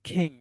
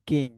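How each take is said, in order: First: The k has a strong puff of breath. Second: The k has no puff of breath. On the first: The speaker calls it right. "এটা right sound কেমন আসবে জানেন?" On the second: The speaker calls it wrong. "Not কিং, এটা ক কখনো উচ্চারণ আসবে না"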